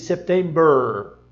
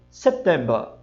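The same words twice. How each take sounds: First: September with a curled final R; September americano com R; American September. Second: September britânico; British September. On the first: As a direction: roll the R at the end of September. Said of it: "Ele não diz September". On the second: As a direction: cut the final R of September. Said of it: "Se ele disser só o mês". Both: Shown as a demonstration.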